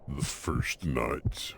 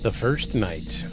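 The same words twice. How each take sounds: First: It is said in a put-on deep voice. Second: It is said in a normal voice.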